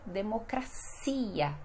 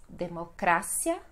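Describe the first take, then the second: First: "democracia" as de-mo-cra-SI-a, stress on CI; Portuguese pronunciation. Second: "democracia" as de-mo-CRA-sia, stress on CRA; Spanish pronunciation. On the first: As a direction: draw out CI in "democracia". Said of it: "no português vamos ter". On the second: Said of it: "no espanhol". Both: Shown as a demonstration.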